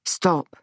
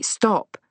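First: Calming, less urgent request; gentler. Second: Said in the usual way. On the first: A narrator's reading. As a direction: ease off and say it kindly. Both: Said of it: "gentler this time".

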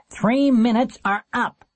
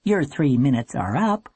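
First: High, slow, taunting call; nasty, drawn-out shout from the steps. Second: Even operator's announcement with rising end; businesslike notice, lifted at the end. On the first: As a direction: call time on them nastily. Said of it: "in a nasty voice". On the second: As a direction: cut in routinely as a phone operator. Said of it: "The operator cut in and said". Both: A narrator's reading.

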